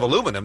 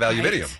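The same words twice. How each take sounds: First: Said in the usual way. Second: "aluminium" with five syllables, stress on MIN; British pronunciation. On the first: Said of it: "they have aluminium". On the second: Shown as a demonstration. Host contrasting British word with the American one, British pronunciation. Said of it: "they don't have aluminum".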